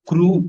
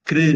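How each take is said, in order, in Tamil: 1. இந்த அசை 'u' உயிரொலியுடன் சொல்லப்படுகிறது. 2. இந்த அசை 'i' உயிரொலியுடன் சொல்லப்படுகிறது. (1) "அப்படி உச்சரிக்க கூடாது" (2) "அப்படின்னு உச்சரிக்கணும்"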